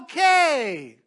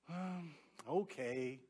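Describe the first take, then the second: First: It sounds thrilled and enthusiastic. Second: It sounds glum and nearly hopeless.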